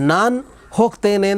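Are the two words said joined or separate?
separate. The two words are said separately with a break. The speaker calls it wrong. "ಎಲ್ಲೂ ಹೇಳಲ್ಲ ನಾವು"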